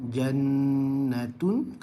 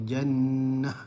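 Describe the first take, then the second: First: The word ends with a 'tun' sound. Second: The word ends with an 'h' sound. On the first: The reading continues without stopping. "contoh jannatun" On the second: The reader stops on this word. "kalau kita waqaf dia akan bertukar kepada jannah"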